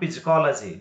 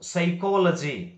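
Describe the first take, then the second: First: The word starts with a p-like sound before s. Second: The word starts with an s sound, no p. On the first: The speaker calls it wrong. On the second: The speaker calls it right.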